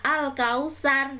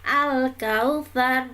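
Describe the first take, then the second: First: The consonant before the last vowel is s. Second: The consonant before the last vowel is th. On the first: The speaker calls it wrong. "bukan al-kausar" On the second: The speaker calls it right. "ada kata kautsar di situ sa ya"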